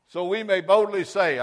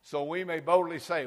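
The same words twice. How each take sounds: First: Loud preaching. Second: Said in the usual way. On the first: Shown as a demonstration. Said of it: "Don't shout me down now".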